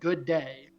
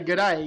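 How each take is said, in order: First: Each word is clearly enunciated separately. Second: The two words are run together quickly. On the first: The speaker calls it wrong. "Like you did pronounce, like enunciate it" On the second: The speaker calls it right. "you didn't say good day"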